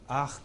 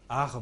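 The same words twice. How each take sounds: First: The final R is voiceless. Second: The final R is voiced. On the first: "je fais un R, qui en fait euh, correspond au, au, au R de, de l'allemand" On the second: "on va faire un R voisé"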